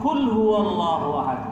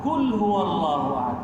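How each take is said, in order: Both takes have the same delivery.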